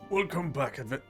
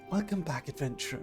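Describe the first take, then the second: First: The voice is harder, not soft. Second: The voice is softer and gentler.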